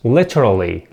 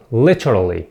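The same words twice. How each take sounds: The two takes are said the same way.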